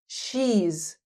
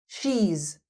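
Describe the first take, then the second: First: The words merge into one short syllable. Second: The same.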